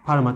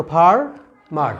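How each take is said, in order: First: Said in the usual way. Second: farmer broken in two, FAR, pause, MAR; split into syllables. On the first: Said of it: "farmer শব্দটাকে আমরা". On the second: Shown as a demonstration. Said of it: "দুটা ভাগে ভাগ করতে পারতেছি".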